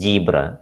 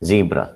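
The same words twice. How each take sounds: First: The word ends in a full vowel. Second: The word ends in a very brief schwa. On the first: The speaker calls it wrong. "But some people will pronounce it as zebra" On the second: The speaker calls it right. "this is the correct pronunciation of zebra. ... The last sound is schwa"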